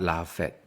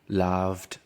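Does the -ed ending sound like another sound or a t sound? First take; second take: another sound; t sound. First: The ending is not pronounced as a t sound. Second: The ending is pronounced as a t sound. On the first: The speaker calls it wrong. "not laughed" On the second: The speaker calls it right. "pronounce the ed ending as just to"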